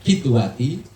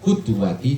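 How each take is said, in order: First: The first vowel is an 'i' sound. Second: The first vowel is a 'u' sound. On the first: "Dibaca qidwati" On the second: "boleh dibaca qudwati juga bisa"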